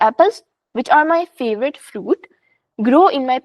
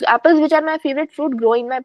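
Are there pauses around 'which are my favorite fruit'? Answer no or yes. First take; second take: yes; no. First: Short pauses set off the middle clause. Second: It is read straight through without pauses. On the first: The speaker calls it right. "मैं इसको इस sentence को इस तरह पढ़ूंगी" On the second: The speaker calls it wrong. "This isn't how this sentence is supposed to be"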